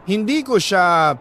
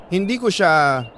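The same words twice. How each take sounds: The two takes are said the same way.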